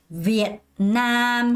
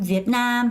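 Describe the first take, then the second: First: The stress is on the first syllable. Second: The stress is on the second syllable. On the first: The speaker calls it wrong. "베트남 하고 있는 게 아니라" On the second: The speaker calls it right. "두 번째 훨씬 더 강세를 주면서 읽는 게 훨씬 자연스럽습니다"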